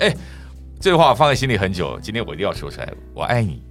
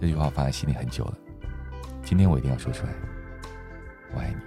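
First: It sounds casual and matey, like a buddy. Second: It sounds soft, tender and inviting.

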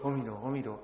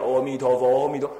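First: It is said softly, almost to oneself. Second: It is said in a louder voice.

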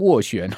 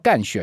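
First: The first syllable is pronounced wo. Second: The first syllable is pronounced gan. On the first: The speaker calls it right. "这个念乌哦握" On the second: The speaker calls it wrong. "不叫干旋哦"

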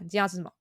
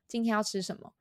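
First: It is said fast, with syllables run together. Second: It is said at normal speed, words distinct.

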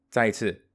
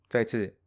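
The two takes are said the same way.

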